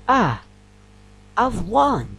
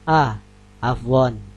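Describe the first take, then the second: First: It is said with lively, surprised intonation. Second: It is said flat, with no intonation emphasis. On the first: The speaker is genuinely surprised. The speaker calls it right. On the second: It does not express surprise. The speaker calls it wrong.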